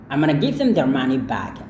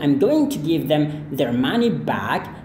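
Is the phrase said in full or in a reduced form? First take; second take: reduced; full. First: The words are shortened and run together. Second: Every word is pronounced fully and separately. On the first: This is how native speakers casually say it. "dia hanya katakan" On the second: This is the formal, standard way. "ketimbang dia bilang"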